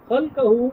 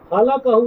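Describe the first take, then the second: First: The L sound has no vowel after it. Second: The L sound is followed by a short vowel. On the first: It names the form given to each thing. The speaker calls it right. "لام جو ہے اس پر جزم ہے" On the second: It means that which he created. The speaker calls it wrong. "خلقہ نہیں"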